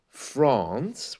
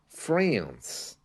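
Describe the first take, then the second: First: A broad open 'ah' vowel with the jaw dropped. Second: A flat front 'a' vowel with the lips spread. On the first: The speaker calls it right. "which is the correct British way to say it" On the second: The speaker calls it wrong. "which is the American way, where you're pulling your mouth from side to side"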